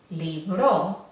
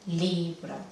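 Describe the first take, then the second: First: The stress is on the second syllable. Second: The stress is on the first syllable. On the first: It is a different word with another meaning. "Si ponemos el énfasis en esta sílaba final" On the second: It is something you read with many pages. "El acento fonético sí es la penúltima"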